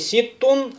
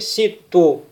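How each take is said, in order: First: The word ends with an n sound. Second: The word ends without an n sound. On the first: The speaker calls it wrong. "говорим не ситтун" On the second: The speaker calls it right. "а говорим ситту"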